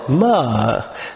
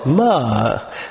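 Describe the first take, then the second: First: The pitch rises and then falls. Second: The pitch rises and then falls.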